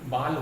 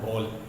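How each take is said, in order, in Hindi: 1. स्वर खुला, बिना गोल हुआ 'aa' है। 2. स्वर गोल 'aw' ध्वनि है। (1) "ये बाल हो जाएगा" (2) "बॉल होता है बॉल"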